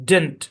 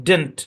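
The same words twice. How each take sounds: Both takes have the same delivery.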